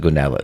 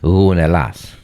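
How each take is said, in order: First: It starts with a hard English G sound. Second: It starts with a soft sound from the throat. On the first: The speaker calls it wrong. "everyone says Gunella, in English that's the way the G comes off" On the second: The speaker calls it right. "You have to use the back of your throat"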